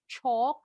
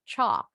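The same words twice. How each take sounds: First: The vowel is round, with rounded lips. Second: The vowel is slightly wider and more open. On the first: "Bacanya boleh bulat" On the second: "Seperti American English agak lebar sedikit"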